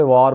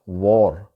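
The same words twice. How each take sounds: First: वार with a long "aa", vaar; local pronunciation. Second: वॉर with a rounded "aw", wor; native English pronunciation. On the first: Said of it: "इसको वहाँ पे वार बोला जाता है". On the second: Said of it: "pronunciation तलफ़ुज़ है". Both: Shown as a demonstration.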